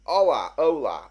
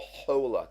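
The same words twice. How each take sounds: First: Hola said as "ola", no H sound; silent H. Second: Hola with a clear breathy H at the start; sounded H. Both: Shown as a demonstration. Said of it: "Is it, is it pronounced".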